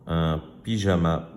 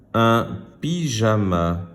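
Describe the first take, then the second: First: Said in the usual way. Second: "Un pyjama" slow, word by word; word reading. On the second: Shown as a demonstration. Teacher reading words to pupils, slow "Un pyjama". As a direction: sound out "Un pyjama" deliberately. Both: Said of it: "Je lis des mots".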